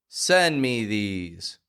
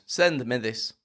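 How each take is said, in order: First: The last word has a long E vowel. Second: The last word has a short I vowel. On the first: The speaker calls it right. "a phrase that has two E sounds in it" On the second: The speaker calls it wrong. "your words won't sound like, send me this"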